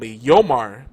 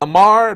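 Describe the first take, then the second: First: The name begins with a Y sound. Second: The name begins with an L sound. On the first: The speaker calls it right. "It's Yo and Mar" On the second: The speaker calls it wrong. "where do you see an L in there?"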